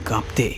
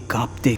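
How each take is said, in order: Both takes have the same delivery.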